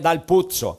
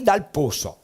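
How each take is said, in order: First: The middle consonant is a sharp 'ts' sound. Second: The middle consonant is a plain 's' sound. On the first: The speaker calls it right. "a pronuncia corretta sarebbe uguale a pizza, perché è due Z" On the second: The speaker calls it wrong. "ma nantri italiani dal pozo"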